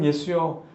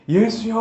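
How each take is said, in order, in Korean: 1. 절제된 톤으로 부드럽게 말합니다. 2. 크고 힘차게 외칩니다. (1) "부드러운 톤과 이렇게 절제된 말투로" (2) "막 소리 지르면서"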